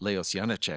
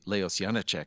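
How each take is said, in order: First: The name is said with an American pronunciation. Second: The name is said with an American pronunciation.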